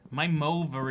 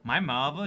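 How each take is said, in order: First: The middle sound is a v. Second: The middle sound is a th. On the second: "even when I said mother there, like, it, it worked too well. It ruined the accent"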